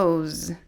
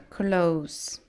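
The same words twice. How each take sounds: First: The word ends with a z sound. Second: The word ends with an s sound. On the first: It is used as a verb. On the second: It is used as a noun.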